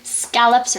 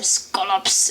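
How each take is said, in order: First: Said in the speaker's own usual pronunciation. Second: Said in another person's different pronunciation.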